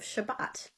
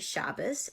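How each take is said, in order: First: The word ends with a t sound. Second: The word ends with an s sound. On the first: This is the Israeli way of saying it. "instead of Shabbat" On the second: "I say Shabbos"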